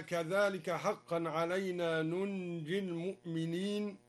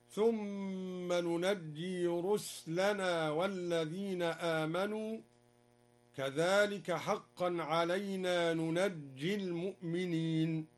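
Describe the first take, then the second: First: Said in the usual way. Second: ننجي as nunajji with fatha and shadda; open nun, doubled jim. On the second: Shown as a demonstration. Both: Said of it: "قرأ الدوري بفتح النون وتشديد الجيم".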